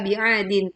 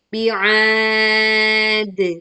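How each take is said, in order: First: The word ends with the syllable -din. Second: The word ends on a bouncing d sound. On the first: The reader keeps going without stopping. "Kalau kita bi'adin" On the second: The reader stops at this word. "karena ini kita berwakaf, maka menjadi bi'ad"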